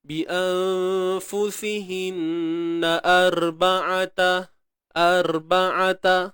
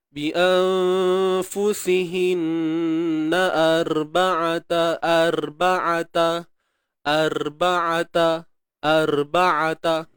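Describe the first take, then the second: First: Arba'ata with a full heavy ra, slow; proper heavy ra. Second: Arba'ata with a thin light ra, slowly chanted; too thin ra demo. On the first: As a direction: give the correct thick ra. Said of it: "ni yang biasa". (arba'ata dengan ra tebal yang betul) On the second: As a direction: show the wrong thin ra. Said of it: "Dia tak adalah nipis sangat saya buat tu". (arba'ata dengan ra nipis, contoh salah) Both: Shown as a demonstration.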